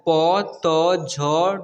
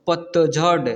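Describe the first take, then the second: First: पतझड़ slow, each letter separate; पतझड़ broken into drawn-out letters; spelled out letter by letter. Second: Said in the usual way. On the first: Shown as a demonstration. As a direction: sound out पतझड़ one long letter at a time. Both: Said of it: "उच्चारण करना सिखा".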